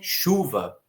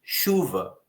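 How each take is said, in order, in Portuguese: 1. A sílaba tônica é a primeira. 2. A sílaba tônica é a primeira.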